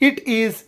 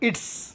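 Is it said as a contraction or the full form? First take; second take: full form; contraction. First: Two separate words are said in full. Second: The words are run together as one.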